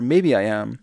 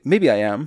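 First: The words are pronounced clearly and more slowly. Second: The words are slurred together and run quickly. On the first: The speaker calls it right. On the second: The speaker calls it wrong.

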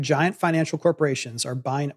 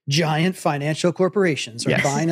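First: It is read in the speaker's ordinary voice. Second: It is read in a put-on, different voice.

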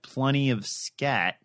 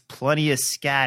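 First: The phrase is spoken slowly and deliberately. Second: The phrase is spoken at a normal pace.

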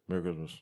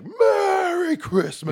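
First: It is said flatly, without feeling. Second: It is said with big, jolly feeling. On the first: The speaker calls it wrong. "No, no. Say it with feeling" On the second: The speaker calls it right. "He does the big Santa thing"

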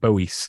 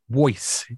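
First: The name is said much like the name Bowie. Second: The name is said unlike the name Bowie. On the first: This is how most people say the name. The speaker calls it wrong. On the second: This is how the person says his own name. The speaker calls it right.

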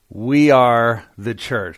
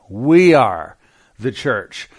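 First: 'We are' gets no special emphasis. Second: 'We are' is said with strong emphasis.

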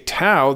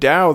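First: The word begins with a T sound. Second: The word begins with a D sound. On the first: "that may not be the proper Chinese pronunciation, but they're going to find the book" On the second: "they're going to look for the D or like Dow Jones"

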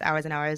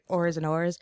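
First: Hours is said in a crisp, overly enunciated British accent. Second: Hours sounds like 'ors', in an older English accent. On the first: Only the time meaning comes through. "when it's like overly enunciated British English" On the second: It puns on a word for prostitutes. "it's like original, it's like ors and ors"

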